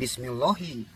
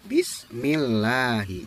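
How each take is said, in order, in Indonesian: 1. Bunyi L dalam Allah terdengar penuh dan berat. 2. Bunyi L dalam Allah terdengar tipis dan ringan. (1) "tidak Bismillahi" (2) "dibaca tipis"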